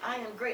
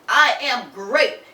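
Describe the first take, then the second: First: It is said softly and gently. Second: It is said loudly and forcefully. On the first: The speaker calls it wrong. "in that very gentle uh, uh, voice of his" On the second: The speaker calls it right. "say it with um, emphasis, with power"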